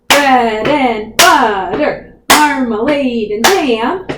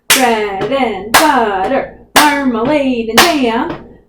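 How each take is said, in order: No difference in how they are said.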